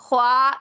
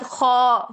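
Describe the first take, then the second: First: The long vowel is light and open, like 'aa'. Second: The long vowel is dark and rounded, like 'aw'. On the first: The speaker calls it wrong. "नहीं" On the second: The speaker calls it right. "उसके बाद खौ"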